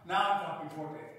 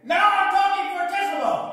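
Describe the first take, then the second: First: It is spoken at moderate loudness. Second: It is spoken very loudly.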